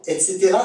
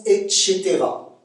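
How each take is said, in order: First: Said in the usual way. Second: "et cetera" with a sh sound, et-chétéra; Québécois pronunciation. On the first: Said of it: "ça se prononce". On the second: Shown as a demonstration. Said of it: "ça se prononce et cetera".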